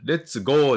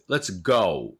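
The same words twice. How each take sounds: First: "let's go" with a flat, higher, drawn-out "gō"; wrong long-o "go". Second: "let's go" with "go" falling from o into u; correct "ou" glide in "go". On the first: Teacher showing learners what to avoid, long-o "let's go". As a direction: say "let's go" katakana-style, ending "gō". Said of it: "let's goじゃなくて". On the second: Teacher modelling the fix, gliding "ou" in "let's go". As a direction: say "let's go" ending in a clear "gou". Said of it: "おうです". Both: Shown as a demonstration.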